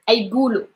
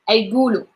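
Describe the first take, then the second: Both takes have the same delivery.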